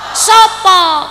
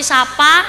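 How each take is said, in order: First: The vowels are said as rounded o sounds. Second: The vowels are said as open a sounds. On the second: "Kalau di sini"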